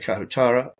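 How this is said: The name is said carefully with every syllable. This is the speaker's own pronunciation. The speaker calls it right. "I say Kahutara. I use my own accent"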